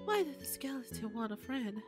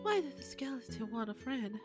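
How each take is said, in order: First: It is read in an imitation of Toriel's voice. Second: The same.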